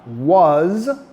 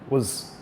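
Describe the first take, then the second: First: It is said in its full, stressed form. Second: It is said in its weak, reduced form.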